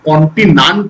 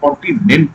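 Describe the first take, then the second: First: The last syllable has an 'a' vowel, 'nant'. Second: The last syllable has an 'e' vowel, 'nent'. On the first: The speaker calls it wrong. "কন্টিনান্ট তো বলে না" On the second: The speaker calls it right. "কন্টিনেন্ট বলে"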